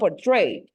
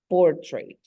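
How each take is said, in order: First: The stress is on the second syllable. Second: The stress is on the first syllable. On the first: The speaker calls it wrong. "it's not portrayed" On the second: The speaker calls it right. "is at the beginning"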